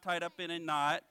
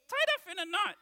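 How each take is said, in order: First: Said in the usual way. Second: High, loud puppet guess; confident puppet blurting a wrong answer; Bones. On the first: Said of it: "No, he is not". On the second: Pretend. Puppet guessing the verse, high loud voice. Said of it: "I'm your ventriloquist".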